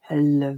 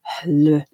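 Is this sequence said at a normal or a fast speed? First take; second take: fast; normal. First: The sounds are said quickly in succession. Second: The sounds are said at a moderate speed. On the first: "I could try to do it quicker" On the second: "would become hl, v, r, b, d"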